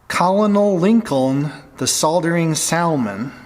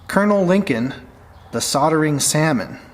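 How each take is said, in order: First: The normally silent letters are all pronounced. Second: The normally silent letters stay silent. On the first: This mocks how pedantic listeners would say it. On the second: This is the speaker's own usual way of saying it.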